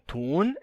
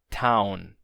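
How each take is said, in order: First: The vowel is a long 'oo' sound. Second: The vowel is an 'ow' diphthong. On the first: This is the older form of the word. "Esse U longo" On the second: This is the modern form of the word. "se torna AU"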